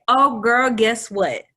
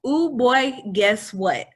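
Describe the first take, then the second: First: Put-on bright, loud, higher "Oh, girl" burst; gushing wrong-gender greeting. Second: Put-on higher, louder "Ooh, boy" sung out; corrected gushing greeting. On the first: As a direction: gush "girl" at him like an old friend. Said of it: "And I say". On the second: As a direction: fix it and breeze on cheerfully. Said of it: "I say, "Excuse me, I'm sorry".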